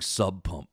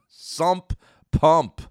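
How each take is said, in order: First: The first word ends with a b sound. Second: The first word ends with an mp sound. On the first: The speaker calls it wrong. "I was saying sub pump my whole life" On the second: The speaker calls it right. "It's sump pump"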